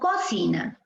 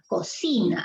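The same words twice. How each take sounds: First: The stress is on the first syllable. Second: The stress is on the middle syllable. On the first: The speaker calls it wrong. "Si fuese en co, diríamos" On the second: The speaker calls it right. "Pero es cocina, cocina. Allí está la fuerza de voz"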